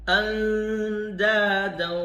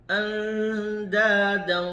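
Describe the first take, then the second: The two takes are said the same way.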